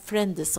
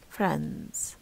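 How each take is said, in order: First: An extra vowel splits it into two syllables. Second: It is said as one syllable, no extra vowel. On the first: The speaker calls it wrong. "غلط طبعا" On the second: The speaker calls it right. "you only have friends"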